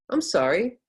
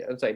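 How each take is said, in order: First: "I'm sorry" pitched high, "sorry" lifted; changed upward intonation. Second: "I'm sorry" low, falling on "sorry"; downward intonation. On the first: Teacher changing it to go up, rising intonation. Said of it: "I could change it". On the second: Teacher showing it can go down, falling intonation. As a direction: drop "sorry" down. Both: Shown as a demonstration.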